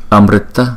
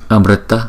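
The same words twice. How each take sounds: The two takes are said the same way.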